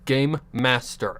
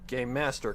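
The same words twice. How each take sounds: First: It is said slowly with each word clear. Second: It is said quickly and runs together. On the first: The speaker calls it right. "I'd have to slow myself down" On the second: The speaker calls it wrong.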